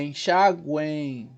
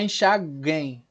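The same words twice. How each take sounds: First: Slow "enxaguem" with the U sounded, "enxa-güein"; correct pronunciation. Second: "enxaguem" with a silent U, as "enxaghem"; wrong pronunciation. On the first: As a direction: draw out the triphthong at the end of "enxaguem". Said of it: "É enxaguem". ("enxaguem" devagar, soando o U e um I final) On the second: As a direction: drop the U glide in "enxaguem", hard G straight into "em". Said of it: "Não é enxaguem". ("enxaguem" errado, sem soar o U) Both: Shown as a demonstration.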